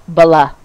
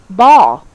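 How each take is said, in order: First: A vowel is inserted between b and l. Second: The b and l blend with no vowel. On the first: The speaker calls it wrong. "It is not bala" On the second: The speaker calls it right. "It's supposed to be pronounced as ball"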